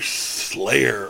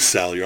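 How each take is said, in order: First: The name begins with the sound 'slay'. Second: The name begins with the sound 'sal'. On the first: The speaker calls it wrong. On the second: The speaker calls it right.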